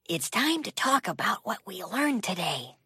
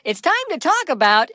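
First: Whispered, breathy and hushed. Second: Said in the usual way. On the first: Acted. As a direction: hush it so the song won't play. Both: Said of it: "why are you whispering?".

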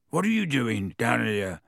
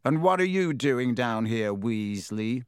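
First: Startled question, peaking early then falling; mildly incredulous, in character; surprised. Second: Drawn-out scornful question, falling on the name; sneering. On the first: Boy running into his brother unexpectedly, surprised. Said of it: "said Ron in surprise". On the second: Boy challenging a prefect he scorns, sneering. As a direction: look down on them as you ask. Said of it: "he sneered". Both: A narrator's reading.

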